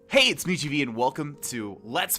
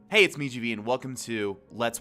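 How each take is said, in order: First: It sounds forced and exaggeratedly cheerful. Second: It sounds relaxed and naturally friendly.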